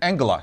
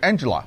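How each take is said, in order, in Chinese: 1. 这个名字按德语的读法发音。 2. 这个名字按英语的读法发音。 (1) "在德语的发音呢是Angela" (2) "一个非常普遍的一个英文的女性的名字"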